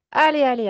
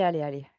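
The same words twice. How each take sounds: First: Encouragement fort. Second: Said in the usual way. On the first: Real, not acted. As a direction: call out, loud and urgent. Pousse le patient à expulser. (encourager fort et pressant)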